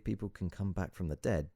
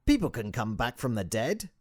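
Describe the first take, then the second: First: Said in the usual way. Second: Put-on high, loud, accented guru; emphatic sage. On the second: A narrator's reading. Sage cutting in on doubting visitor, emphatic and accented. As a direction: agree eagerly, high and loud. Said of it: "he said, nodding furiously".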